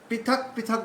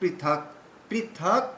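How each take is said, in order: First: Both words are said with equally short syllables. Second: The first word's second syllable is drawn out long. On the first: The speaker calls it wrong. "পৃথক পৃথক বললে হবে না" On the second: The speaker calls it right. "প্রথম পৃথকের মানে থটা কিন্তু দীর্ঘ উচ্চারণ হবে"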